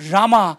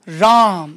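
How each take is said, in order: First: The word ends with an added a vowel. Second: The word ends on the consonant m. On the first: The speaker calls it wrong. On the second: The speaker calls it right.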